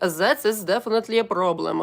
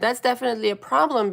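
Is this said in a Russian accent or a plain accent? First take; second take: Russian; plain. First: It is spoken with a Russian accent. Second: It is spoken in the speaker's usual accent.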